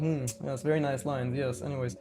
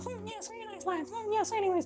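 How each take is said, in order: First: It is said in his own normal voice. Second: It is said in a put-on female voice.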